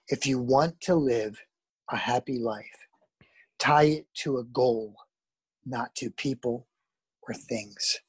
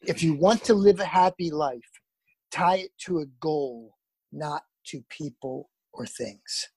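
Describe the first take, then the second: First: It is said more slowly. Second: It is said at a normal pace.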